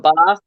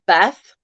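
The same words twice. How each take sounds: First: "bath" with a long ah, as in father. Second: "bath" with a short a, as in cat; flat short vowel in "bath"; mum's English bath. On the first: Shown as a demonstration. Contrasting with mum's way, long-ah "bath". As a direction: open "bath" out to bahth. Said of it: "instead of bath". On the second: Retold or imitated. Quoting mum born in England, short-a "bath". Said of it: "so she actually says".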